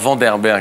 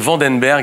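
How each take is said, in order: First: The sound before 'berg' is an R. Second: The sound before 'berg' is an N. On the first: The speaker calls it wrong. "et pas Vanderberg" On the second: The speaker calls it right. "c'est Vandenberg"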